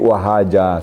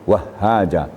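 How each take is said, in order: First: The h sound is short and single. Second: The h sound is held long and doubled. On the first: Merely bright. The speaker calls it wrong. "Tapi kalau tidak pakai tasdid, wahaja saja" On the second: Very bright, brilliantly shining. The speaker calls it right. "Sangat terang, terang benderang"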